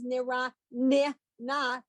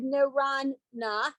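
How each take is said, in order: First: A short vowel separates the two n sounds. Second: The two n sounds run together with no vowel. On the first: It shows that the word has two letters there. The speaker calls it right. "You've got to pronounce the ni so that I know it's nira ni na" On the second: It hides that the word has two letters there. The speaker calls it wrong. "if you just said niran na, I would not necessarily know that there were two nuns"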